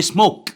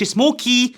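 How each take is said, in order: First: "سموك" ending on a bare k; silent final e. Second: "سموكي" as smo-kee; sounded final e. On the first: Teacher gives the real word, ending on k. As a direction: say "سموك" as one syllable, smok. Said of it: "بقول". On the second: Teacher shows the silent e wrongly voiced, smo-kee. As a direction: say "سموكي" with an ee on the end. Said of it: "لان ما بقولش". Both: Shown as a demonstration.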